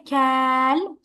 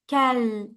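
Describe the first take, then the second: First: The vowel after the k is stretched long. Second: The vowel after the k is short. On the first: The speaker calls it wrong. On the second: The speaker calls it right.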